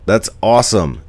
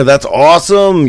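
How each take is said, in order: First: Said in the usual way. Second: Bright, high, loud "That's awesome"; thrilled "That's awesome" in a raised voice; excited. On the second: Real, not acted. Greets viewer from Argentina.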